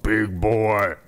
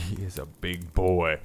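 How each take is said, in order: First: Excited exclaim. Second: Fond slow laugh through the words; laughing admiration. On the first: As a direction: cheer it out like a proud owner. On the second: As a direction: savour it with a laugh. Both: Real, not acted. Admiring the big cat.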